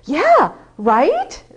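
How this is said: It is said in an excited tone. The speaker is enthusiastic about it. "then I'm excited"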